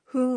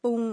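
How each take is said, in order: First: "ฮึ" begun with a breathed h; h-sound pronunciation. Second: "ปุง" begun with a popped p; p-sound pronunciation. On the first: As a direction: say "ฮึ" with an h onset, not p. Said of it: "ดูเหมือนบางทีออกเสียงว่า". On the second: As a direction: say "ปุง" with a p onset, not h. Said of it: "และบางทีก็ออกเสียงว่า". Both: Shown as a demonstration.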